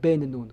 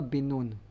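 First: The first word has an 'e' vowel, ben. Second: The first word has an 'i' vowel, bin. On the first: "ולא בן נון" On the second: "למה קוראים לו יהושע בן נון"

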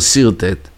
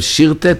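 First: The word begins with an 's' sound. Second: The word begins with a 'sh' sound. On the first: The speaker calls it right. "סין" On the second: The speaker calls it wrong. "שין"

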